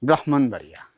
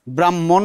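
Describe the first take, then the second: First: ব্রাহ্মণবাড়িয়া as brahmanbaria, h sounded, falling; the right way, ব্রাহ্মণবাড়িয়া said carefully; correct pronunciation. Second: ব্রাহ্মণ said bramːon, doubled m, no h; the wrong way, ব্রাহ্মণ with a swallowed h; wrong pronunciation. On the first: Teacher settles the right ব্রাহ্মণবাড়িয়া for students, calm and clear. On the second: Teacher shows students the mistaken ব্রাহ্মণ, plainly voiced. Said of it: "ব্রাহ্মণ নয়". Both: Shown as a demonstration.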